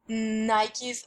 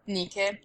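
First: The name has the usual American pronunciation. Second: The name has the Greek pronunciation. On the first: "It's Nike in America" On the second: "if we want to be, like, Greek precise"

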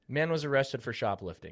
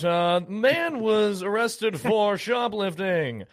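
First: It is said in a plain conversational voice. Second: It is said in an exaggerated newscaster voice. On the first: The speaker calls it right. "Can we just say" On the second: The speaker calls it wrong. "why do we talk like that?"

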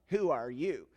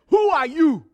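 First: It is said in a plain standard accent. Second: It is said in a Nigerian accent. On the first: "If you don't understand the accent, that's who are you" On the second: "But in the Nigerian accent, it's who are you?"

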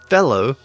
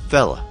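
First: The final syllable is said fully. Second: The final syllable is reduced to 'uh'.

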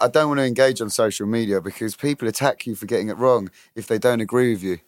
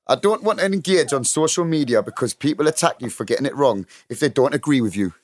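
First: It is said in his normal accent. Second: It is said in a Newcastle accent.

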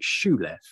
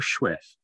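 First: The name is said with an L sound. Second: The name is said without an L sound. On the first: The speaker calls it wrong. "I pronounced it Schulef, to much deridement" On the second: The speaker calls it right. "I think, is the pronunciation"

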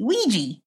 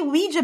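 First: The word ends with a 'gee' sound. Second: The word does not end with a 'gee' sound. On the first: This is how the speaker habitually says it. "I always say Ouija as if it was spelled W-E-E-G-E-E" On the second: This is how it ought to be said. "I think it should be Ouija"

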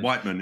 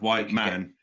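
First: The two words are clipped and run together. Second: The two words are said fully and separately.

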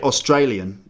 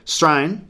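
First: The word is said in full, every syllable clear. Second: The word is squeezed into one short clipped syllable. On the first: "you don't say Australian" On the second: "if you're Australian, ... You say Strain"

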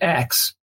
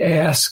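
First: The word ends with a k then s sound. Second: The word ends with an s then k sound. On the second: "some people say"

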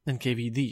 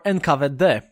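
First: The letters are read with English letter names. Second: The letters are read with non-English letter names.

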